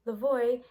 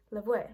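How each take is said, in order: First: Said in the usual way. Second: Lavoie said the French way, as "la-vwah"; French pronunciation. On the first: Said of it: "one of the many variants". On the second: Shown as a demonstration. Giving the original French name, Lavoie pronounced "la-vwah" in French. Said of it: "of the original French name".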